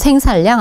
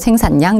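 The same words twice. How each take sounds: First: The middle consonants are both L sounds. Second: The middle consonants are both N sounds. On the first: The speaker calls it wrong. "생산량 아니고" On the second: The speaker calls it right. "니은 니은으로 발음이 돼요"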